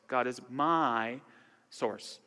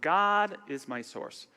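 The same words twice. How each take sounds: First: The stress falls on the word my. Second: The stress falls on the word God. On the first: "emphasize each word" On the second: "emphasize each word"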